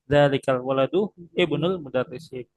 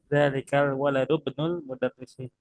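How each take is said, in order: First: The i at the start of ibnu is pronounced. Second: The i is dropped, joining waladu to bnu. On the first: The words are read separately to explain the grammar. The speaker calls it wrong. "Saya bacanya pakai i-nya ya" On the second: The words are read connected as one phrase. The speaker calls it right. "kalau dibacanya diwasolkan"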